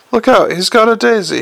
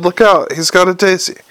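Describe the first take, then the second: First: A raised, high warning cry; alarmed shout. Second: Said in the usual way. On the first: A narrator's reading. Moist warns the room about the clown's daisy, shouting. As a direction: yell the warning across the room. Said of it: "he shouted". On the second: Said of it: "I just shouted".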